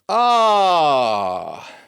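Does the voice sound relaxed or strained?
strained. The sigh sounds tight and strained. The speaker calls it wrong. "And when it's done wrong"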